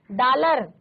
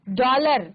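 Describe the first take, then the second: First: डॉलर with a plain open "aa", like "daalar"; डॉलर said flatly as "daalar", not rounded; wrong way to say it. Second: डॉलर with the rounded ऑ between aa and o; डॉलर said "dollar" with a rounded vowel; correct pronunciation. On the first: Teacher shows students the wrong pronunciation, open aa. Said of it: "नहीं बोलना है". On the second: Teacher models the right sound, rounded ऑ. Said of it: "अर्धचंद्राकार मात्रा है उसके साथ उच्चारण करना है". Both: Shown as a demonstration.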